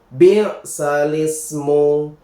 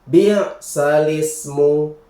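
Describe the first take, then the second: No difference in how they are said.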